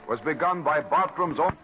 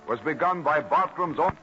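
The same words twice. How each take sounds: The two takes are said the same way.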